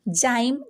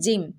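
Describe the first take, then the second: First: The vowel is a long 'eye' sound. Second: The vowel is a short 'i' sound. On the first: The speaker calls it wrong. "जाइम नहीं" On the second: The speaker calls it right. "आई की short pronunciation होगी"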